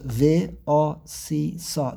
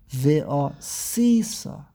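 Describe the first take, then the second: First: The stress is on the last syllable. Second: The stress is on the second-to-last syllable. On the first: "it appears under the suf, that's the last syllable" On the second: "mila el, which means the second to last syllable"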